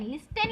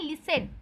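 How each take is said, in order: First: "लिस्ट टेन" as written, t fully sounded; spelling pronunciation. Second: "लिसन" with a silent t, lis-sen; correct pronunciation. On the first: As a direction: read "लिस्ट टेन" letter for letter, lis-ten with a hard t. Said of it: "लिस्ट टेन लिखा है". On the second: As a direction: say "लिसन" with no t sound. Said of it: "पर इसे पढ़ते हैं लिसन". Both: Shown as a demonstration.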